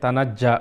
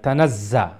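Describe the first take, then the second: First: The doubled consonant sounds like a j. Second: The doubled consonant sounds like a z. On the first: The speaker calls it wrong. "উচ্চারণটা জিমের সাথে ... জিমের মতো হয়ে যাচ্ছে। তানাজ্জা বলতেছেন আপনি" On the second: The speaker calls it right. "জার উচ্চারণ হবে"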